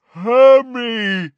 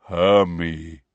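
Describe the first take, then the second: First: High, very loud giant roar; giant's roar. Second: Low, rumbling giant voice; deep rumbling giant. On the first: Giant calling the girl, full roar. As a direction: roar the name out long. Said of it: "roared Grawp". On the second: Giant recognising the girl, deep slow rumble. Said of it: "said in a deep, rumbling voice". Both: A narrator's reading.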